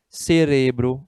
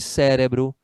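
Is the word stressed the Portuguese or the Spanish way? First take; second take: Spanish; Portuguese. First: The stress falls where Spanish places it. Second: The stress falls where Portuguese places it. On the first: "tem a sílaba tônica diferente do português" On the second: "no lugar de"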